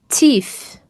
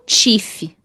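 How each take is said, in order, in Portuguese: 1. O primeiro som do t é suave e leve. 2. O primeiro som do t é forte, não suave. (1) "pronunciar de forma assim bem suave" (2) "não teeth"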